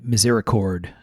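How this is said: The word is said with an American pronunciation. "in American English"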